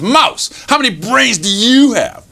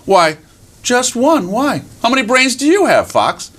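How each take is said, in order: First: High, swooping challenge on YOU; boastful fox. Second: High little mouse voice; tiny mouse. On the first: Fox challenges tiny mouse about brains, boastful. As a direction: call out mouse, then quiz grandly. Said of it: "And he says". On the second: Mouse answers the boasting fox, innocently curious. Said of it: "he met little tiny mouse". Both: Acted.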